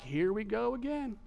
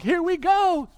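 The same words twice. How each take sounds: First: Softer, understated here-we-go reaction; disciples' reaction. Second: High, loud burst of excitement; hopeful excitement. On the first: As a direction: say it under your breath, expecting a repeat. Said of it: "the disciples are like". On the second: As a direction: exclaim it with hopes soaring. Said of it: "get their hopes up". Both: Acted.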